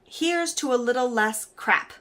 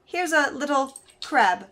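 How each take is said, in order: First: "less crap" spelled out slowly and distinctly; measured reading with "less" clearly heard before "crap"; intended message. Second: Slow punchline reveal, landing on "crab"; pause, then deliver "little crab" slowly and higher; "crab" set apart as the punchline; misheard message. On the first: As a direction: say "little less crap" slowly, each word separate. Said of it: "Instead of writing". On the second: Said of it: "they wrote". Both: Shown as a demonstration.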